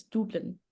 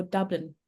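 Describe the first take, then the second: First: "Dublin" with an oo vowel, DOOB-lin; outsiders' pronunciation. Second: "Dublin" with a short uh vowel, DUB-lin; local pronunciation. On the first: Guest showing how outsiders say it, "Dublin" as DOOB-lin. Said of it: "people who haven't been in Ireland". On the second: Guest contrasting with outsiders' version, "Dublin" as DUB-lin. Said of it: "but people will go Dublin". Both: Shown as a demonstration.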